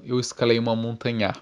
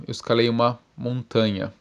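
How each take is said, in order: First: Montanha stressed on NHA, the last syllable; misplaced stress. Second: Said in the usual way. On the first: Shown as a demonstration. Immigrant telling you of a climb, montanha stressed on final NHA. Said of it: "foi mudar a sílaba tônica". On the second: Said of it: "em vez de falar".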